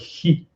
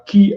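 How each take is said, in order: First: The word begins without a hard K sound. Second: The word begins with a hard K sound. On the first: This is the current pronunciation. "mais Tai Chi" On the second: This is the older pronunciation. "pas Ki avec le K"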